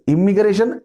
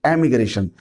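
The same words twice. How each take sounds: First: इमिग्रेशन with a clear short इ at the start, pitched up; immigration, I sound. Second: एमिग्रेशन opening on a clear ए, level; emigration, E sound. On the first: Teacher contrasting two words, stressing the इ of इमिग्रेशन. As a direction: start इमिग्रेशन on a crisp इ, rising. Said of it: "इमिग्रेशन, एमिग्रेशन दोनों में बहुत difference है". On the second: Teacher contrasting two words, giving एमिग्रेशन its ए. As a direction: open एमिग्रेशन on a distinct ए. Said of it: "दोनों में बहुत difference है". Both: Shown as a demonstration.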